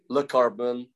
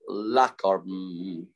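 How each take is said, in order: First: The first syllable has a short reduced vowel. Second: The first syllable has a full 'a' vowel.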